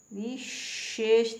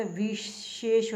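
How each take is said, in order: First: विशेष slow, with a long hushing middle sh; wrong pronunciation. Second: विशेष slow, with palatal first sh; correct pronunciation. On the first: Teacher showing the mistake, विशेष drawn out slowly. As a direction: stretch out विशेष at its first sh. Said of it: "विशेष नहीं आता". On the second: Teacher correcting learners, विशेष slow with palatal sh. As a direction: make the first sh of विशेष as in shalgam. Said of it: "शलगम वाला श आता है". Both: Shown as a demonstration.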